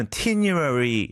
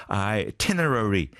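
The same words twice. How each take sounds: First: Itinerary with its middle syllables smudged together; slurred pronunciation. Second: Itinerary slow and distinct, every syllable sounded; corrected pronunciation. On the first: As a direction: blur the inner syllables of itinerary into "tinyu-ari". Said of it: "약간 좀 이렇게 뭔가 이렇게 뭉개지듯". (itinerary를 뭉개지듯 발음) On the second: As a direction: spell out Itinerary by ear as eye-ti-ne-ra-ry. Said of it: "아, itinerary-군요". (Itinerary를 음절마다 또박또박 천천히) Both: Shown as a demonstration.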